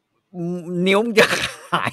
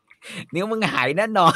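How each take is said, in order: First: Very slow, slightly high warning; Gordon Ramsay warning. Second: Slow, higher, certain warning; Gordon Ramsay warning. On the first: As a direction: drag out the threat word by word. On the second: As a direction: lay down the verdict slowly. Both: Retold or imitated. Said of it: "กอร์ดอน แรมซี่บอก".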